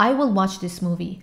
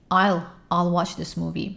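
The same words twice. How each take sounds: First: Said in the usual way. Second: Slow "I'll watch" with "will" shrunk; contracted "I'll", said slowly. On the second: Shown as a demonstration. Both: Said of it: "همه رو سعی کن که مخفف به کار بری".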